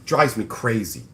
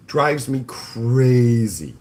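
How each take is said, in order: First: Said in the usual way. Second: Slow, stretched exasperated groan; drawn-out exasperation. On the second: Real, not acted. Streamer fed up with freeloaders, slow exasperated drawl. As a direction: drag it out, fed up.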